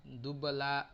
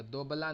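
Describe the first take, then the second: First: दुबला with a short u, du-bla, no o sound; the right reading दुबला, short u in the first syllable; correct pronunciation. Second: दोबला said with a long o in the first syllable, do-bla; the mistaken reading दोबला, first vowel o; दोबला as do-bla with a rounded o; wrong pronunciation. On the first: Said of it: "अब यहाँ पे दुब नहीं पढ़ेंगे". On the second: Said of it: "दोबला नहीं पढ़ेंगे". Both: Shown as a demonstration.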